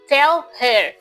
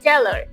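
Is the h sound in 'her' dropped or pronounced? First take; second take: pronounced; dropped. First: The h in 'her' is clearly pronounced. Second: The h in 'her' is dropped. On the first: "like tell her" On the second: "they say tell her"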